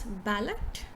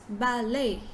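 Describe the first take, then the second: First: The word does not end in 'lay'. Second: The word ends in a 'lay' sound. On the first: The speaker calls it wrong. "a lot of us will pronounce this word as ballot" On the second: The speaker calls it right. "but it's ballet ... ba, lay"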